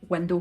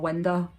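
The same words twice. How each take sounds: First: It is said in a broad Scottish way. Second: It is said in a careful, posh-sounding way. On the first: The pronunciation expected from other local speakers. "instead of window" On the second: The speaker's own habitual pronunciation, mocked as posh. "I'd say window"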